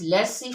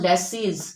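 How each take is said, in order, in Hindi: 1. शब्द का अंत स्वर से होता है, Z साइलेंट है। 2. शब्द का अंत बोले जाने वाले Z से होता है। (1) "it is लेसी फेयर" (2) "it is not लेसीज"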